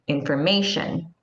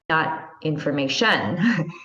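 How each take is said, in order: First: The stress is on the third syllable. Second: The stress is not on the third syllable. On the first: The speaker calls it right. "then the syllable before is stressed" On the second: The speaker calls it wrong.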